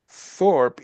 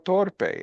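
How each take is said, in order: First: The name is said with its English sound. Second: The name is said with a Spanish sound. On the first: This is the real name. The speaker calls it right. "Me llamo [name], Thorpe y no Torpe" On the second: In Spanish this means stupid. The speaker calls it wrong. "they would pronounce it Torpe"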